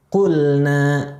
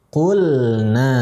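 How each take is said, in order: No difference in how they are said.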